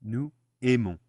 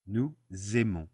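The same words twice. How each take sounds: First: "Nous aimons" split into two words, no Z; no liaison. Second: "Nous aimons" said noo, zay-mon, with the Z sounded; liaison Z. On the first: Teacher showing two clashing vowel sounds, "Nous aimons" without liaison. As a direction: say "Nous", brief gap, then "aimons" starting on the bare vowel. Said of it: "we don't like that in French". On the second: Teacher showing the correct French link, "Nous aimons" with liaison. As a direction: turn the silent S of "Nous" into a Z opening "aimons". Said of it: "turn the S of nous into a Z". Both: Shown as a demonstration.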